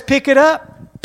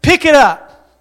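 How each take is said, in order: First: Said in the usual way. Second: Louder, insistent echo of the command; preacher echoing God's command to the congregation; urgent echo. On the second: Shown as a demonstration. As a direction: hammer the command home.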